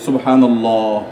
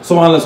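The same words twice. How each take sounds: First: It is said slowly and with feeling. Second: It is said hurriedly, rattled off.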